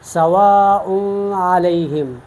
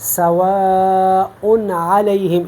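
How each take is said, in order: First: The n sound is not clearly pronounced. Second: The n sound is pronounced clearly and distinctly. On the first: The speaker calls it wrong. "इस तरह हम नहीं पढ़ेंगे" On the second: The speaker calls it right. "ज़ाहिर करके करेंगे इजहार करेंगे"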